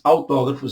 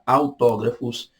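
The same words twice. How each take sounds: First: It is said at normal speed. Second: It is said slowly and deliberately.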